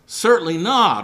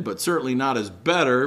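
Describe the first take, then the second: First: Certainly not, hit hard and loud; emphatic denial. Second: Said in the usual way. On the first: Retold or imitated. Preacher voicing Paul's answer, emphatic and loud. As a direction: slam down "Certainly not" as a firm refusal. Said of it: "Paul's emphatic answer".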